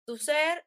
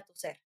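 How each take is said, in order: First: Tuzher said very slowly, each sound placed with care; a slow, careful Tuzher, checking the pronunciation. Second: Said in the usual way. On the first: Shown as a demonstration. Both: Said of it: "no sé si lo estoy pronunciando bien".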